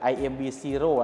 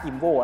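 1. อ่านสะกดทีละตัวอักษร แล้วตามด้วย 'zero' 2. ชื่อนี้อ่านเป็นคำเดียว ลงท้ายด้วย 'oh' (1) "จริงๆมันคือ" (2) "ตอนแรกผมอ่านว่า"

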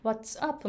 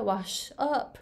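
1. 'up'の前は ts の音です。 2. 'up'の前は sh の音です。

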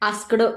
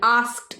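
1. शेवटी d च्या आधी एक अतिरिक्त स्वर आहे. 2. शेवटी एक छोटा t आवाज आहे. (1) "आस्कड नाही" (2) "थोडंसं ट असा उच्चार करायचा तुम्हाला"

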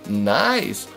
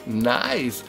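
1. Das Wort wird stark betont gesprochen. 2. Das Wort wird ganz normal gesprochen, ohne extra Betonung.

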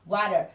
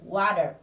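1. Phụ âm ở giữa là âm vỗ nhẹ giống âm D. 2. Phụ âm ở giữa là âm vỗ nhẹ giống âm D.

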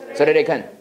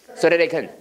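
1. 단어들이 빠르게 이어지고 짧게 튀는 소리가 나요. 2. 단어들이 빠르게 이어지고 짧게 튀는 소리가 나요.

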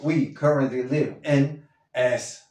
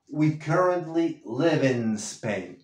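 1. Hay una pausa entre 'in' y 'Spain'. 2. La n de 'in' pasa directo a 'Spain'. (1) "Si lo dices separado" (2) "únelo con la N de en"

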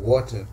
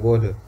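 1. बीच का व्यंजन साफ़ 't' की आवाज़ है। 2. बीच का व्यंजन 'd' जैसा सुनाई देता है। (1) "ब्रिटिश इंग्लिश में वाटर" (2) "वो टी को डी प्रोनाउंस कहते हैं"

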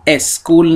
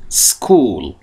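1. یک مصوت اضافی قبل از صدای s میاد. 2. کلمه مستقیم با صدای s شروع میشه. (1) "دقت کنید تلفظش اسکول نیستا" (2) "باید بگیم سکول"

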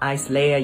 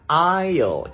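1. Chữ s trong từ này được phát âm. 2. Chữ s trong từ này bị câm. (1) "hay là isler gì đâu" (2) "mình đọc là aisle"

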